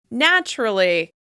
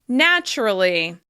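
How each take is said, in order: No difference in how they are said.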